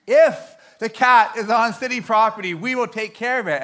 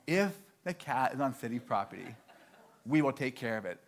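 First: IF punched high and loud; loud, higher, insistent clerk spelling out a hint; emphatic repetition. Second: Low, soft clerk repeating the rule; subdued, matter-of-fact recital of policy; understated repetition. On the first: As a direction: hammer home "If the cat is on city property". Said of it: "She says it one more time". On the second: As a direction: say it quietly, as a knowing confirmation. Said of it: "all she said one more time". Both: Retold or imitated.

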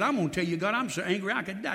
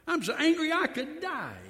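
First: Mild mock anger, a bit quick; angry prophet. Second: Higher, pleading mock outburst; angrier repeat. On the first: Preacher voicing Jonah's complaint to God, mild mock anger. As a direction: grumble it like a sulking prophet. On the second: Preacher repeating Jonah's protest to God, raised mock outburst. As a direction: cry it out like a prophet at the end of his rope. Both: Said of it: "I told him twice".

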